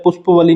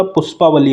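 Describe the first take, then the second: First: "पुष्पवली" with a short a after pushp; wrong form demonstrated. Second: "पुष्पावली" with a long aa after pushp; correct form demonstrated. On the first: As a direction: say "पुष्पवली" as push-pa-va-lee. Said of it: "पुष्पवली नहीं होता". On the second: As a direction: say "पुष्पावली" as push-paa-va-lee. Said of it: "पुष्पावली होता है". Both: Shown as a demonstration.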